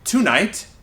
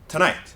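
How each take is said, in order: First: The first syllable has a full vowel. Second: The first syllable is reduced to a schwa. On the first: The speaker calls it wrong. "we usually don't say tonight" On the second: The speaker calls it right. "we say tonight. Ta"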